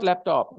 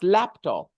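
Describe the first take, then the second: First: The stress is on the second syllable. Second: The stress is on the first syllable. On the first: The speaker calls it wrong. "It's not laptop" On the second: The speaker calls it right. "it's laptop"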